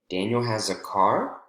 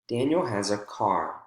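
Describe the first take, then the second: First: The pitch rises at the end. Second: The pitch falls at the end. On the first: It is a question. "would be a question" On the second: It is a statement. "with statements in English, we have a quick jump for the focus word and then falling intonation"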